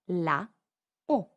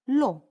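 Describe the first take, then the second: First: The article's vowel is fully pronounced before eau. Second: The article's vowel is dropped before eau. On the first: The speaker calls it wrong. "So we should say la eau" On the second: The speaker calls it right. "instead here we just say l'eau"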